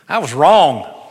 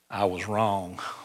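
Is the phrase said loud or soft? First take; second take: loud; soft. First: It is said more loudly. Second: It is said at normal loudness.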